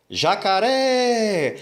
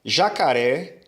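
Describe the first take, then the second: First: JACARÉ with the final É held long and higher; calling-out stress test. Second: Said in the usual way. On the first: Shown as a demonstration. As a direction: call out "Jacaré" as if to someone distant, stretching the last vowel. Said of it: "chamando a palavra como se fosse uma pessoa que estivesse distante". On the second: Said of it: "chamando a palavra como se".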